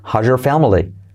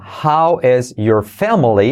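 First: The s and y blend into one sound. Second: The s and y sounds are said separately.

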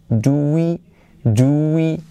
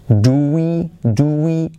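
The two takes are said the same way.

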